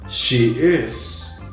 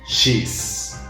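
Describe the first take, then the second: First: It is said as two separate full words. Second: It is said as one short contracted syllable.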